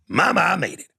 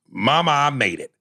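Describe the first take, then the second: First: It is read in a put-on voice. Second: It is read in his normal voice.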